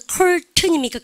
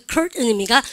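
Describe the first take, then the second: First: "커튼" with the t released, British style; full t. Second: "커튼" with the t swallowed, "컬-은", American style; silent t. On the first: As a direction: sound out the t in "커튼". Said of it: "미국 애들은 트 다음에 음 발음 나면". ("커튼"의 ㅌ을 다 내는 영국식 발음) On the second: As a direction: drop the t of "커튼" and catch before the n. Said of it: "안 해요?". ("커튼"의 ㅌ을 먹은 미국식 "컬은") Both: Shown as a demonstration.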